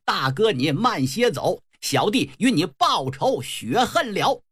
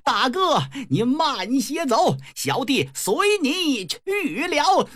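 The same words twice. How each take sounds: First: Said in the usual way. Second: High, drawn-out theatrical wail; flustered cry. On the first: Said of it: "想喊". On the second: Acted. Brother in panic shouts the wrong vow, high drawn-out wail. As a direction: cry it out high, stretching to a climax. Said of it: "一着急还喊错了".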